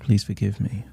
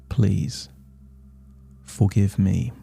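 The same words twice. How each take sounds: First: The phrase is spoken quickly. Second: The phrase is spoken slowly. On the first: "You can say it fast" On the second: "or slow"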